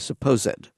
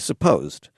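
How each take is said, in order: First: The -ed vowel is pronounced, giving three syllables. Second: The -ed vowel is dropped, giving two syllables. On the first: The speaker calls it wrong. "We wouldn't say supposed" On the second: The speaker calls it right. "we would say supposed"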